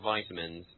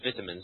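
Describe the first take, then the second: First: The i vowel gets more emphasis, American style. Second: The i vowel gets little emphasis, British style. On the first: "not vitamins" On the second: "the British pronunciation, which is vitamins"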